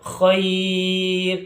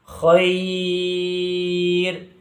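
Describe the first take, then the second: First: The vowel is held for a short count. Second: The vowel is held for a medium count. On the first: "ini satu alif" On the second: "dua alif"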